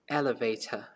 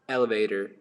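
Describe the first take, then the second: First: It is said in a British accent. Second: It is said in an American accent. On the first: "if you want to sound more British, you have to say" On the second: "if you want to sound like American"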